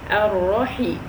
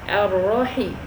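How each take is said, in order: The two takes are said the same way.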